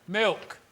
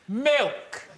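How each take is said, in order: First: The word is said quietly. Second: The word is said loudly.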